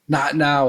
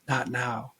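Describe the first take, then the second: First: It is said a bit louder. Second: It is said softly and subtly.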